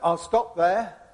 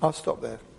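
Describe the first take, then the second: First: It is said more loudly. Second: It is said more quietly.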